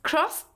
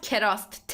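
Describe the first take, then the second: First: The k and r sounds are joined directly. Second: A short vowel separates the k and r. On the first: The speaker calls it right. "it's crust" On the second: The speaker calls it wrong. "not kerast"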